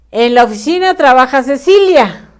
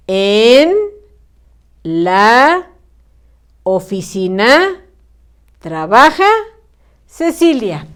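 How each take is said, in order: First: En la oficina trabaja Cecilia rushed as one lump with no gaps; fast, run-together wrong reading; all crammed together. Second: En, la, oficina, trabaja, Cecilia, each word said alone with a pause after it; each word separated. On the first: Teacher showing pupils the crammed wrong reading, fast and run together. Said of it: "Todo amontonado". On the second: Teacher showing pupils the correct reading, slow word by word. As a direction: dictate slowly, a gap after every word. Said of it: "Vamos a separarlo correctamente". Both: Shown as a demonstration.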